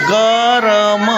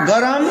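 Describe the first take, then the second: First: गरम stretched very slowly, sound by sound; careful sounding out. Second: Said in the usual way. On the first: Shown as a demonstration. Teacher correcting pupils' reading, गरम sounded out slowly. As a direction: draw out every sound of गरम. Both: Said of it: "ध्यान से पढ़ो".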